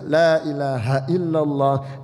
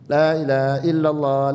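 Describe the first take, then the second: First: The long vowels are held their full length. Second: The long vowels are cut too short. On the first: The speaker calls it right. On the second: The speaker calls it wrong. "Yang enggak punya ilmu begini ... haknya kurang"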